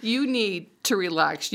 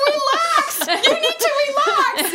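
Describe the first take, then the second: First: Said in the usual way. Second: Much higher, louder boss voice, slowed and laughing; imitating boss. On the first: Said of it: "that was his way of saying". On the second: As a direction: ham up the boss telling her to calm down. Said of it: "He's like".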